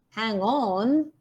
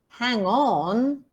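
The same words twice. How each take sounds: First: The main stress falls on the second word. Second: The main stress falls on the second word.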